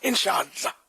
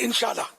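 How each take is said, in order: First: The word is said carefully with every syllable clear. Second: The word is said quickly with syllables run together. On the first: The speaker calls it right. "इंशाअल्लाह ये तो बोले" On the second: The speaker calls it wrong. "अभी इसको जल्दी बोल दे"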